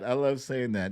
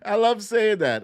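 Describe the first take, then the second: First: Said in the usual way. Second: Proud delight. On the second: Real, not acted.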